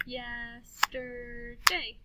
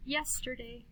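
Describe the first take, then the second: First: YESTERDAY very slowly, yes-ter-day; stretched-out "Yes-ter-day"; clapped syllables. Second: Said in the usual way. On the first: Shown as a demonstration. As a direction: chant "Yesterday" in three long beats. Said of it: "then we'll clap the syllables". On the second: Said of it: "listen to these words".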